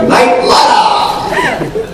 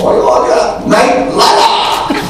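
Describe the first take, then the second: First: Very high, slow shouted "Knight Rider" said like "Night Lider"; squealing Japanese dub cry, laughing. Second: High, drawn-out excited "Knight Rider" with a Japanese L; laughing Japanese dub voice; Japanese dub imitation. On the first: Retold or imitated. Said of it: "But they actually say". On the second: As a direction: mimic the Japanese dubbing, laughing through it. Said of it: "they speak Japanese and they go".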